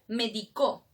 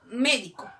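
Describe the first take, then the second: First: The stress is on the last syllable. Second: The stress is on the first syllable. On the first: It means someone prescribed something in the past. "Medicó, ah, es en tiempo pasado" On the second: It names a doctor. "Médico, ¿no es cierto? Es el doctor"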